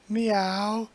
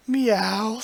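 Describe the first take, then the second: First: A mewing cat call with a rising tune; a playful, cutesy kitty meow. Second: Cat meow. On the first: Voicing the cat again. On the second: Voicing the cat's reply. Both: Pretend.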